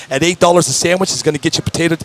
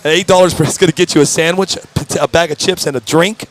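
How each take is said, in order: First: Lightly salesy infomercial pitch; a hint of a TV ad read. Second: Said in the usual way. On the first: Shown as a demonstration. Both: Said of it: "I sound like an infomercial".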